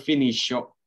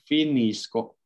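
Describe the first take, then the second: First: The c after s is not pronounced like k. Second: The c after s is pronounced like k. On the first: The speaker calls it wrong. "bukan finiscio" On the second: The speaker calls it right. "C-nya kita baca seperti K"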